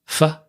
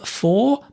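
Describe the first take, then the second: First: The word is reduced with a weak vowel. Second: The word has a full vowel. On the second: "for become"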